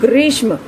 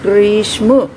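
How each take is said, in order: First: The word is said at normal speed. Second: The word is said slowly, sound by sound.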